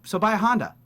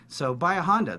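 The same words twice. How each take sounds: First: Higher, louder punchy ad line; frozen ad-read ending. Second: Said in the usual way. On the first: Shown as a demonstration. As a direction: hit the line then freeze. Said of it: "They'll go". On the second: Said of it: "the line is".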